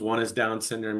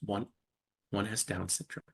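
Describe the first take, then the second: First: The voice is bright and upbeat. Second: The voice is lowered and somber. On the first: Having a son with Down syndrome is something to be proud of. The speaker calls it right. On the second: Having a son with Down syndrome is something to be sad about. The speaker calls it wrong.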